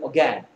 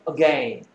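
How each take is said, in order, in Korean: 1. 이 단어는 더 빠르게 말해요. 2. 이 단어는 더 천천히 말해요.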